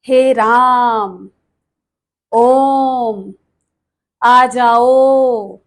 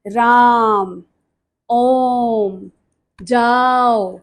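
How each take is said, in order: First: Very slow, each vowel stretched long: हे राम, ओम, आ जाओ; drawn-out pluta vowels. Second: Said in the usual way. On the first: Shown as a demonstration. Teacher showing students pluta vowels, stretching each vowel slowly. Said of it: "इस तरह से". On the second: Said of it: "इसको प्रदर्शित किया जाता है".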